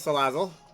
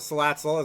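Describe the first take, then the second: First: The double Z sounds like a plain z. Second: The double Z sounds like ts.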